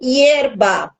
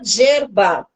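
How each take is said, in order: First: It begins with a soft y-like glide. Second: It begins with a buzzing zh-like sound. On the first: "Ela não fala, por exemplo, hierba" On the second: "ela fala gerba"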